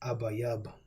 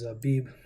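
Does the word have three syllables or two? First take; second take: three; two. First: The word is said in three syllables. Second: The word is said in two syllables. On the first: This is the original Hebrew form. The speaker calls it right. "the Paleo Hebrew pronunciation, the real uh, Hebrew" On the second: This is the later Yiddish form. The speaker calls it wrong. "Abib is not the proper pronunciation. This is the Yiddish uh, pronunciation"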